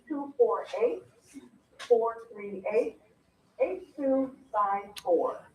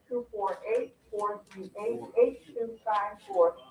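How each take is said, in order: First: The number is said more slowly. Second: The number is said at a normal pace.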